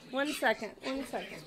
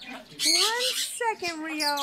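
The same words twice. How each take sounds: First: Said in the usual way. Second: "One second" stretched out very slowly; slow, emphatic "One second" to an impatient pet; insistent stalling. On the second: Real, not acted. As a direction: draw out each word of "One second". Repeats it to impatient bird.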